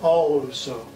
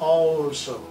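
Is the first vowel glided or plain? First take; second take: glided; plain. First: The first vowel is long and gliding. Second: The first vowel is short and plain. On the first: The speaker calls it right. "এ সাউন্ডটাকে glide করে অ করতে হবে" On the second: The speaker calls it wrong. "আমরা সাধারণভাবে বলি অলসো না"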